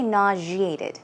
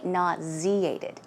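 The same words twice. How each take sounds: First: "nauseated" said nah-zhee-ay-tid; zh variant. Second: "nauseated" said slowly as nah-zee-ay-tid; z pronunciation. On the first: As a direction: use a zh in the middle of "nauseated". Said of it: "some people say". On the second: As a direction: use a clear z in "nauseated", unhurried. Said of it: "I say nauseated". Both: Shown as a demonstration.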